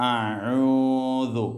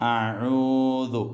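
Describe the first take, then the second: Both takes have the same delivery.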